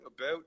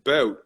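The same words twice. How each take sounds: First: Said in the usual way. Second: Canadian "bout" like "boat"; Canadian accent. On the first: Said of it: "how do you guys say". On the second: Retold or imitated. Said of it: "first Canadian accent when you said".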